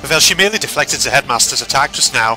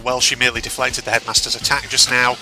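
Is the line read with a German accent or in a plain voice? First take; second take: German; plain. First: It is read in a put-on German accent. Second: It is read in the reader's ordinary voice.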